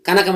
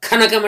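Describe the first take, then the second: First: కనకం with a plain unaspirated k; plain k sound. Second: ఖనకం with a breathy aspirated kh. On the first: Teacher shows plain కనకం, unaspirated. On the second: Teacher contrasts ఖనకం with an aspirated kh. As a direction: push air on the kh of ఖనకం. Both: Shown as a demonstration. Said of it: "అదే అక్కడ ఒత్తుకా ఉంది కదా".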